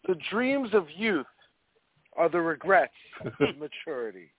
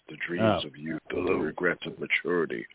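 First: It is read in an ordinary speaking voice. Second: It is read in an assumed character voice. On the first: The speaker calls it wrong. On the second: The speaker calls it right.

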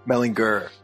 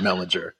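First: The g is pronounced hard, as in go. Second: The g is pronounced soft, as in gem. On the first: This is how the speaker says his own name. "hard G, like me" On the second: This is how a relative said the name. "my own grandpa always said Mellinger"

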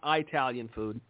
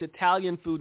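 First: The first vowel differs from the start of Italy. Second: The first vowel sounds like the start of Italy. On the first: The speaker calls it wrong. "not Italian food" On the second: The speaker calls it right. "it's Italian food"

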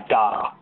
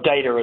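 First: It is said with a non-American accent. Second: It is said with an American accent.

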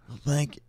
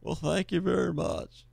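First: It sounds like a California surfer voice instead. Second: It is a convincing impression of the president.

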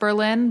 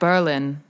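First: The stress is on the second syllable. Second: The stress is on the first syllable. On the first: "in German it's also pronounced Berlin" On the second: "They put the emphasis in the front"

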